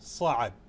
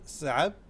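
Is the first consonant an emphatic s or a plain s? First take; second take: emphatic; plain. First: The word begins with an emphatic s sound. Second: The word begins with a plain s sound. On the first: "the correct pronunciation is صعب" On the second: "with the s sound sab"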